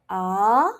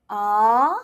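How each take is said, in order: First: The pitch rises from low to high. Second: The same.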